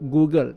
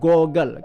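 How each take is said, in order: First: The first vowel is a long 'oo' sound. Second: The first vowel is a short 'o' sound. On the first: The speaker calls it wrong. "orang selalu kadang-kadang kadang-kadang tersebut Google" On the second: The speaker calls it right. "tapi sebenarnya dipanggil sebagai goggle"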